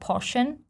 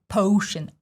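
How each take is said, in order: First: The first vowel is a plain, lazy vowel. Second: The first vowel is a full O diphthong. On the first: The speaker calls it wrong. "Some people lazily say potion" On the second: The speaker calls it right. "the most important part in the word potion, it's O diphthong"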